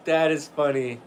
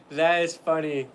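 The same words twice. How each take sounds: The two takes are said the same way.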